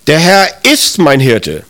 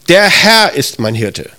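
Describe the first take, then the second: First: The stress is on the word ist. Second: The stress is on the word Herr. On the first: It affirms that this is true despite how things feel. "Das ist vielleicht für dich so eine Bekräftigung" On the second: It is this Lord and no other who is the shepherd. "Da betonst du, das ist der Schöpfer des Himmels und der Erde, der ist das und kein anderer"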